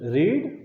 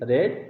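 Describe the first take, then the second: First: The vowel is a long 'ee' sound. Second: The vowel is a short 'e' sound. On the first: It is the present form of the verb. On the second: It is the past form of the verb.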